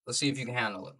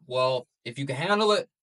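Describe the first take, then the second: First: Softer, teasing repeat of "handle it"; a hushed, playful dare; quiet taunt. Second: Said in the usual way. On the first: Shown as a demonstration. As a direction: drop it down and dare them to "handle it".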